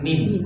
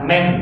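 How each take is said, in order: First: The vowel is a clear i sound. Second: The vowel is a leaned, e-like sound. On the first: The speaker calls it right. "tapi min" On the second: The speaker calls it wrong. "Jangan dibaca imalah, bukan men"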